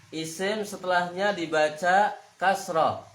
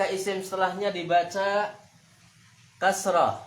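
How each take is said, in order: Both takes have the same delivery.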